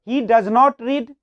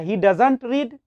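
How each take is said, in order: First: Does and not are said as two full words. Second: Does and not are merged into one short word.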